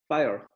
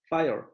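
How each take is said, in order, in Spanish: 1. La r se pronuncia y el triptongo se difumina. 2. La r se pronuncia y el triptongo se difumina.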